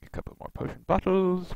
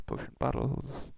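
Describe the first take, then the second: First: Said in the usual way. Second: Breathy whispered repeat of bottles. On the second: Shown as a demonstration. Muttering to himself while looting, whispered. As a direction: whisper potion bottles under your breath.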